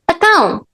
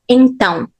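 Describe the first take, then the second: First: The first syllable is replaced by an 'a' sound. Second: The word is said in full with its first syllable. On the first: "we replace it with a, which is a completely different sound" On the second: "sometimes we don't say então"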